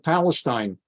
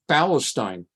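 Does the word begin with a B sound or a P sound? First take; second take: P sound; B sound. First: The word begins with a P sound. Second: The word begins with a B sound.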